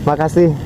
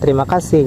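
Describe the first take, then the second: First: The first syllables are dropped, leaving a short form. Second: The phrase is said with all its syllables. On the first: It is the casual everyday form. "Kebanyakannya makasih gitu" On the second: It is the formal form. "kita nggak terima kasih gitu"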